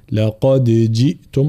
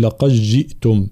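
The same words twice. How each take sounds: First: "لقد جئتم" with the daal sounded and bounced; clear echoing daal. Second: "لقد جئتم" with the daal swallowed into the jeem; merged daal. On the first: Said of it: "فنظهرها ونقلقلها". (إظهار الدال وقلقلتها في "لقد جئتم") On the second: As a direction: run "لقد جئتم" together without the daal. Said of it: "هناك من يدغمها فيقول". (إدغام الدال في "لقد جئتم" خطأ) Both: Shown as a demonstration.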